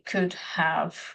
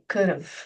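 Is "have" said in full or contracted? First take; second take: full; contracted. First: Both words are said fully and separately. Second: The two words are run together into one. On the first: "if you would say could have gone" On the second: "you make a contraction and you say could have"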